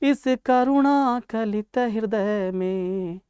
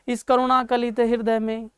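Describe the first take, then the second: First: It is recited with a flowing, rhythmic lilt. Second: It is spoken plainly, like ordinary prose. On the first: The delivery brings out the joy of the poem. The speaker calls it right. "ये लय के साथ किया।" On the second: The delivery brings no joy; it sounds like prose. The speaker calls it wrong. "अगर मैं सीधा कहता"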